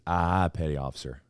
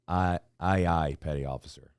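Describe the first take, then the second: First: 'Aye aye' is slurred together in a regional accent. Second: 'Aye aye' is said crisply and distinctly. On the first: Listeners thought it meant 'all right'. The speaker calls it wrong. "when I said it, it was" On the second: This is the expected way to sound off. The speaker calls it right. "We had to say"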